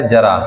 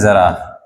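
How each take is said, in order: First: Plain Hindi j at the start of जरा; जरा without nukta. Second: Z at the start of जरा, said slowly; ज़रा with nukta. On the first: Teacher showing the word without a dot, जरा with j. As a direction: say जरा with a j sound, as in jam. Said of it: "यहां पर बिंदी नहीं लगी है". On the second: Teacher showing the dotted word, जरा with z. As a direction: say जरा with a buzzing z sound. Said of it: "यहां पर बिंदी लगी है". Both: Shown as a demonstration.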